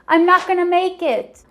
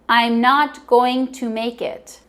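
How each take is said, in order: First: The words are blended, "going to" becomes "gonna". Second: Each word is said fully and separately. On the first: The speaker calls it right. "native English speakers always blend words together" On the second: The speaker calls it wrong. "If you want to sound like a native speaker, don't say"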